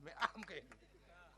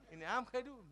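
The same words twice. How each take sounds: First: આમ drawn out slow. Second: આમ hit loud and quick; his way. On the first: Contrasting my way against his, આમ slow and drawn out. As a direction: stretch આમ slowly and gently. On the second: Contrasting his way against mine, આમ loud and quick. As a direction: punch આમ with a fast jab. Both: Shown as a demonstration. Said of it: "ખાંડું બે".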